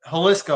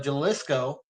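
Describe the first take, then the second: First: The word begins with an H sound. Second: The word begins with an English J sound. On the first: The speaker calls it right. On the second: The speaker calls it wrong.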